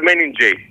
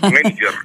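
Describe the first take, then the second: First: The word ends with a 'jay' sound. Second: The word ends with a 'jer' sound. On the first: The speaker calls it wrong. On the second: The speaker calls it right.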